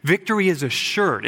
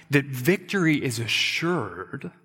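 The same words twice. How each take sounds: First: Victory is assured, with victory hit hard; punchy declaration. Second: That victory is assured, slowed with weight on victory; slow, weighted assurance. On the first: Preacher driving home the point, firm and punchy. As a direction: snap it out firmly, stress on victory. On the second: Preacher reassuring the congregation, slow and weighted. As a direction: lay it down slowly, leaning on victory. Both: Shown as a demonstration. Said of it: "That's the point of this whole section".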